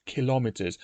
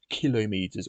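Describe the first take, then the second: First: "kilometers" stressed on LOM; kil-LOM-iters, with a short final meter; second-syllable stress. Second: "kilometers" stressed on KIL, meters said in full; KIL-o-meeters, leaning on the front; first-syllable stress. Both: Shown as a demonstration. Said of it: "the pronunciation kilometer".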